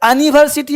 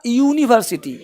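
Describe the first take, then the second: First: The word starts with an 'a' sound. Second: The word starts with a 'you' sound. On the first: The speaker calls it wrong. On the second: The speaker calls it right.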